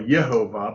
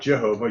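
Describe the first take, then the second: First: The name begins with a Y sound. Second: The name begins with a J sound. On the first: The speaker calls it right. "Yehovah was what it would be" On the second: The speaker calls it wrong. "not Jehovah"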